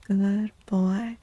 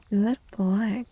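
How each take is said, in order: Both takes have the same delivery.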